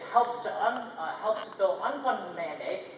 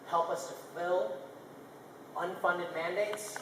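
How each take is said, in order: First: It is said hesitantly with fillers and restarts. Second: It is said smoothly and confidently without fillers. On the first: The speaker seems unsure of the proposal. The speaker calls it wrong. "that sounds much more confident than" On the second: The speaker is sure of the proposal. The speaker calls it right. "confidence is portrayed by a tone like this"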